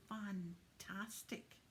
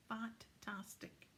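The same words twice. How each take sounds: The two takes are said the same way.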